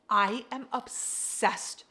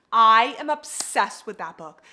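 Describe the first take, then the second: First: Said in the usual way. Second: Much louder, slow and emphatic; excited near-shout; loud gushing. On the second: Real, not acted. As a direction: belt out the love for the book.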